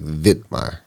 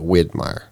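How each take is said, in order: First: The name begins with a V sound. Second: The name begins with a W sound. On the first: The speaker calls it right. "spelled with a W, but it's almost said with a V" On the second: The speaker calls it wrong. "Instead of"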